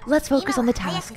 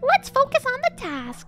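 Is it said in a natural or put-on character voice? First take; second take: natural; put-on. First: It is said in his own natural voice. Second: It is said in a put-on character voice.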